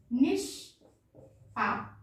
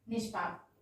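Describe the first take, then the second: First: निष्पाप drawn out very slowly, each sound clear; slow model word. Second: Said in the usual way. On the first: Shown as a demonstration. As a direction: stretch निष्पाप for the class to hear.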